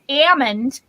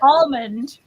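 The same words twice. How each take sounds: First: The word is said without the L sound. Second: The word is said with the L sound. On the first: This is how people from Long Island say it. "where you knock the L out of them" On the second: This is how the speaker herself says it. "I say almond"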